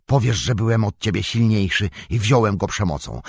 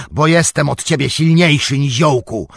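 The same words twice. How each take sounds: First: Said in the usual way. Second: High, loud burst of anger; nagły krzyk. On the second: A narrator's reading. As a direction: suddenly shout down the halfling. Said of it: "krzyknął i znienacka". (nagły, gniewny krzyk)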